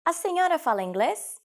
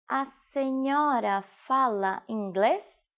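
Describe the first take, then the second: First: Said in the usual way. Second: Slow, drawn-out model question; slow teaching repetition. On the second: Shown as a demonstration. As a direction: stretch "A senhora fala inglês" out syllable by syllable. Teacher repeats phrase slowly for learners. (slowed right down for language learners)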